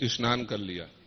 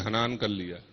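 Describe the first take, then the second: First: The first word begins with an s sound. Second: The first word begins with an h sound. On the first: This is how people in central and eastern regions say it. "Chhattisgarh में या फिर मध्य प्रदेश में, उत्तर प्रदेश में, बिहार में बोलते हैं" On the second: This is how people in the Jaisalmer region say it. "स को ह बोला जाता है ना"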